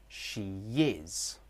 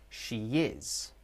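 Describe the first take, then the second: Both takes have the same delivery.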